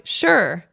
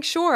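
First: Curt, passive-aggressive one-word reply; falling, dismissive brush-off. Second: Higher, earnest-sounding agreement; sincere. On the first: Replying to her closest friend by text, passive aggressive. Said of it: "which was passive aggressive". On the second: Defending her text to her friend, sincere. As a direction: insist it was meant sincerely. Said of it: "I was sincerely saying". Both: Retold or imitated.

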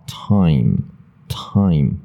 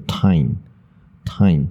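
First: "time" drawn out, ending on closed lips. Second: "time" mispronounced slowly as tine; student's n error. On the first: Shown as a demonstration. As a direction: slowly say time and hold the final m. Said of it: "该闭嘴就闭嘴". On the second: Retold or imitated. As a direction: end time on n with lips left open. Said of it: "很多学生会念成".

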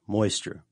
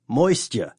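First: Said in the usual way. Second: Moisture in a lightly hammed-up mystery accent; put-on accent. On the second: Host repeats the word to his co-host in a jokey put-on accent. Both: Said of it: "I don't know why I'm doing that accent".

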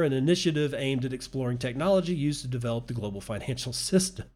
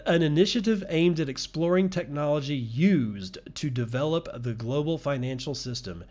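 First: Real laugh breaking up the last word; breaking into laughter. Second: Said in the usual way. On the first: Real, not acted. Podcaster cracking up at a news article, laughing mid-read. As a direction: read quickly until laughter takes over. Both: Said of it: "I'm laughing at that".

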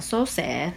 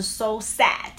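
First: Sad with a lazy short vowel; so sad said slowly with a weak eh vowel. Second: So sad with the mouth open top to bottom. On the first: Retold or imitated. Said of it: "好像很多人就会念". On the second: Shown as a demonstration. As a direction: open the jaw wide on sad. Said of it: "那其实就要把嘴巴张".

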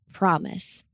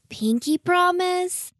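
First: Said in the usual way. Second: Put-on high, slow hopeful child. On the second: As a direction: ask it like an eager little girl. Child asks pinky promise eagerly.

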